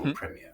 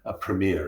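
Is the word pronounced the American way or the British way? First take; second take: British; American. First: It is said with a British pronunciation. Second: It is said with an American pronunciation. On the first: "as we call them" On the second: "as you pronounce them in America"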